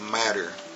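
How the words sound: The T is said in an American way.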